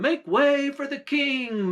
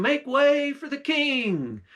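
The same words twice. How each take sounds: First: High called-out holler; hollering crowd. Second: High, slow drawn-out holler; slow hollering call. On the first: Crowd hollers for the king to pass, high call. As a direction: shout it across the crowd to clear a path. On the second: Crowd repeats the call for the king, slower and high. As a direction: stretch the call out over the crowd. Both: Retold or imitated. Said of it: "you could hear people a hollering".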